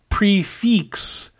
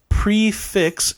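First: It is said with a French pronunciation. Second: It is said with an American pronunciation. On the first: "if you want to say it the French way" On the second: "if you want to use the American version"

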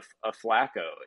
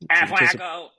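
First: It is said in the speaker's normal voice. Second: It is said in a put-on character voice. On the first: "I've already said it" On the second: "You got to do the voice"

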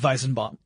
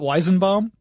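First: The name is said with German sounds. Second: The name is said with English sounds. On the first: This is the correct German form of the name. "But no, it would be Weizenbaum" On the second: This is how the man himself likely says his name. "I'm sure he pronounces it Weizenbaum"

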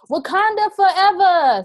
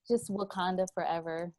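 First: It is said with more energy and force. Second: It is said plainly, with little energy.

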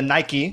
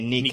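First: The name is said the usual English way. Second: The name is said the ancient Greek way.

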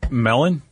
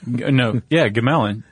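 First: The word starts with no G sound. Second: The word starts with a pronounced G sound.

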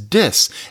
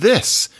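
First: The word begins with a d sound. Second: The word begins with a th sound. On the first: "which is dis" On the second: "Listen to what happens with this"

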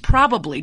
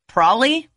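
First: The word is said in full with three syllables. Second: The word is shortened to two syllables. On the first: The speaker calls it right. "It's probably" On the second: The speaker calls it wrong. "did you catch that? Probably. Also not okay. Also not a word"

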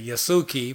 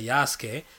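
First: The name is said the Americanized English way. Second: The name is said in a non-Americanized way. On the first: This is how others might say it. "in American and stuff, or in English, they might say Yasuki" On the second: This is how the speaker prefers to say it. "but I say Yasuke"

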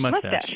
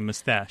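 First: The stress is on the first syllable. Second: The stress is on the second syllable. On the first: This is the usual form here. "we say mustache" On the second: This is the usual form over there. "mustache with the emphasis on the second syllable"

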